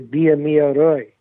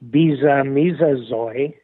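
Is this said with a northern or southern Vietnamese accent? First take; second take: southern; northern. First: It is said in a southern Vietnamese accent. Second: It is said in a northern Vietnamese accent. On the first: "And then in the south, you would say" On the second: "In the north, you would say"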